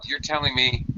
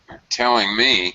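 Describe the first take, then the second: First: It is said flatly, without the usual intonation. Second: It is said with expressive, natural intonation. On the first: The speaker calls it wrong. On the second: The speaker calls it right.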